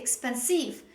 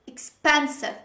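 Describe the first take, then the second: First: The stress is on the last syllable. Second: The stress is on the second syllable. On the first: The speaker calls it wrong. "they usually stress the last syllable in the word" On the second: The speaker calls it right. "The stress is on the second syllable"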